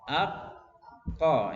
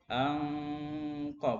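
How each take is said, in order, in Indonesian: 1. Bunyi sengau dihilangkan sepenuhnya sebelum k. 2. Bunyi sengau dipertahankan sebelum k. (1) "Ak ko nun habis ya. Nun masuk ke qaf semuanya" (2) "Kalau tidak semuanya ang ko"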